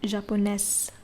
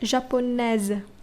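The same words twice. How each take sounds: First: The middle consonant is a hissing s sound. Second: The middle consonant is a buzzing z sound. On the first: The speaker calls it wrong. "not japonaise" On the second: The speaker calls it right. "You pronounce the s as z"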